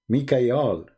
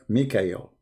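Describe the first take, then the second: First: The final syllable is pronounced 'al'. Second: The final syllable is pronounced 'el'. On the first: This is the ancient form of the name. The speaker calls it right. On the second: This is the later form of the name. The speaker calls it wrong.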